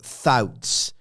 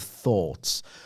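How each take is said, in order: First: The vowel is swapped for a different one. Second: The vowel is the usual one. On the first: The speaker calls it wrong. "I will vowel swap" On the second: The speaker calls it right. "instead of thoughts"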